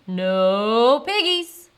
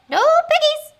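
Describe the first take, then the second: First: Loud, slow cow voice; lowing, drawn-out answer; mooing cow. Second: Very high, loud hen voice; high-pitched poultry squawk; squawking chicken. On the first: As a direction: stretch the words into a moo. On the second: Chicken answers in clucking story. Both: Acted.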